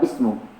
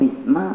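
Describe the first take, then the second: First: The word ends with a u vowel. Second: The word ends with an a vowel. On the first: "bukan bismu" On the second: "bukan bisma"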